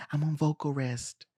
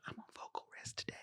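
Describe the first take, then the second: First: Soft voice, saving the throat; hushed. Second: Barely-there whisper. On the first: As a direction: say it softly, sparing your voice. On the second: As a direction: whisper it as if saving your voice. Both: Acted. Imitates actress resting voice.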